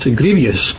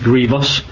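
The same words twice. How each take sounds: First: The word has an added extra syllable. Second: The word is said with two syllables. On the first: The speaker calls it wrong. "as often mispronounced" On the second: The speaker calls it right. "it's grievous"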